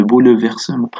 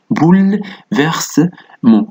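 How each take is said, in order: First: "بو، ل، فيرسمون" run on with the mute e's voiced, bou-le-ver-se-ment; every e sounded. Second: "بو، ل، فيرسمون" in separate chunks, boul-vers-ment, first one pitched high; silent-e pronunciation. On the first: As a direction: say "بو، ل، فيرسمون" with a vowel after the l. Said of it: "وليس بهذا الشكل". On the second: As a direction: close "بو، ل" on a vowelless l, then "فيرسمون". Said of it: "كأننا قد وضعنا هنا سكون". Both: Shown as a demonstration.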